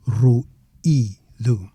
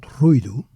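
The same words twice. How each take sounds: First: "ruído" as ru, pause, EE, do; correct hiatus version. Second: "ruído" as RUI-do, u and i run together; wrong diphthong version. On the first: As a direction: give the i of "ruído" its own stressed syllable. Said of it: "Not ruído, ruído". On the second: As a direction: say "ruído" in two syllables with a glide. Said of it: "Not ruído". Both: Shown as a demonstration.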